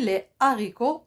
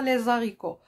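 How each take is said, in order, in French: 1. Le « s » n'est pas lié à la voyelle. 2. Le « s » est lié à la voyelle. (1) "Pas de liaison" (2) "et non pas"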